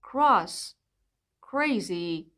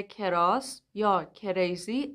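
First: کراس said as kras together; کریزی said as krezi, no extra vowel; correct cluster. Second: کراس said as ke-ras; کریزی split as ke-rezi; wrong vowel inserted. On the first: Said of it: "پس تلفظ کلمه هایی مثل". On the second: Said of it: "اشتباهه". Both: Shown as a demonstration.

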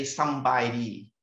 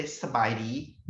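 First: "Sambai di" said slowly, with the "m" sounded in "Sambai"; Isan pronunciation. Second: "Sabai di" said with no "m" in "Sabai" and a rising end; Lao pronunciation. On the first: Researcher contrasting an Isan greeting with Lao speech, slow Ubon-style "Sambai". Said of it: "they won't say". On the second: Researcher showing how people in Laos say the greeting, "Sabai" without the "m". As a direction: drop the "m" and say "Sabai di" the Vientiane way. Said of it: "they would say". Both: Shown as a demonstration.

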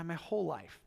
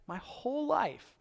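First: Said in the usual way. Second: "my whole life" lifted high and slowed; emphatic repeat. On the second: Retold or imitated. Peter protesting to God, slow emphatic repeat. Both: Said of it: "Peter's gotta be like".

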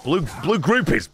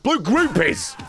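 First: Said in the usual way. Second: Higher, punchy exclamation; excited. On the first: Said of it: "rereading the name". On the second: Shown as a demonstration. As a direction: blurt it out with glee. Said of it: "rereading the name, excited".

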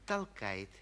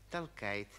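The two takes are said the same way.

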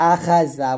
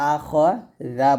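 First: "আখাজা" with an open "a" after kh; wrong thin vowel. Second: "আখজা" said a-KHO-za, rounded after kh; correct full vowel. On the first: Teacher shows the mistake to avoid, KHA in "আখাজা". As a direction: say "আখাজা" with KHA, not KHO. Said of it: "আখাজা বলবেন না". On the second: Teacher gives pupils the right form, KHO in "আখজা". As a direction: say "আখজা" slowly with KHO, not KHA. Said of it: "আখজা বলবেন". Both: Shown as a demonstration.

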